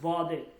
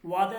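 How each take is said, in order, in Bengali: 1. শব্দটি V উচ্চারণ দিয়ে শুরু হয়। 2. শব্দটি W উচ্চারণ দিয়ে শুরু হয়। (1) "ফার্সিতে ওয়াওয়ের উচ্চারণ ভ" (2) "ওয়াদে না"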